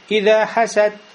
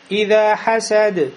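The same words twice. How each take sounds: First: The final d is flattened into a t sound. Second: The final d is voiced with an echoing bounce. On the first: The speaker calls it wrong. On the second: The speaker calls it right.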